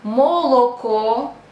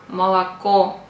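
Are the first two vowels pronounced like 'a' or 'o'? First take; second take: o; a. First: The first two vowels sound like 'o'. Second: The first two vowels sound like 'a'. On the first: The speaker calls it wrong. "if you pronounce like молоко" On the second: The speaker calls it right. "the first two O we have to pronounce like A"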